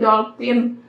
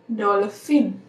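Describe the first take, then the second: First: The middle consonant is a p sound. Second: The middle consonant is an f sound. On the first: The speaker calls it wrong. "kita suka bilang kan kalau dolphin itu dolphin" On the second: The speaker calls it right. "padahal nyebutnya yang benar tuh dolphin"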